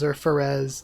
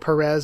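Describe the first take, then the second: First: The name begins with an f sound. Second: The name begins with a p sound. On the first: "translated, I think, officially as Ferez" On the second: "it could just be Perez either way"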